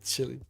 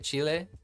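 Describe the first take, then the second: First: It is said in an American way. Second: It is said in a non-American way. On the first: "Americans probably say chili" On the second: "am I pronouncing that right?"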